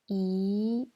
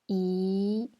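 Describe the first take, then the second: First: The pitch rises from middle to high. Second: The same.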